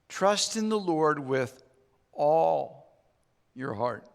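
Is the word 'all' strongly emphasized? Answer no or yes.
yes. The word all is strongly emphasized.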